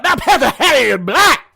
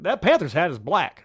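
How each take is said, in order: First: It is said with big, animated, sold energy. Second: It is said in a plainer, restrained way. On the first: "he's selling it ... really into it" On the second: "That's how maybe I would say it"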